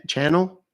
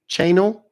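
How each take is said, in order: First: "Channel" with a short a, like TV channel; trying a pronunciation. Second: "Channel" with a long a, CHAY-nul; higher, louder "Channel" as CHAY-nul, questioning; trying another pronunciation. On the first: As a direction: say "Channel" as CHAN-ul, questioning. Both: Shown as a demonstration. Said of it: "Is that how you say it?".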